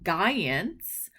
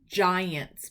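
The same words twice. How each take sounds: First: The word starts with a hard g sound. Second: The word starts with a j sound. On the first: The speaker calls it wrong. "we're not the San Francisco Giants" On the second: The speaker calls it right. "G I makes J"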